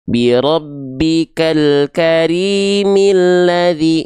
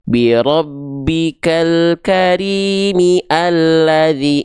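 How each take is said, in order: First: The hamza is dropped and the words link together. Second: The hamza before 'alladzi' is pronounced separately. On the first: The speaker calls it right. "hilang hamzah wasolnya" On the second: The speaker calls it wrong. "nggak akan dibaca gini"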